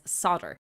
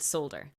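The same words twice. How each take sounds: First: The word is said without an L sound. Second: The word is said with an L sound. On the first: This is the American pronunciation. "the Americans pronounce it as solder" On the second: This is the Irish and British pronunciation. "as a person in Ireland, I say the word solder. I'm not saying it incorrectly"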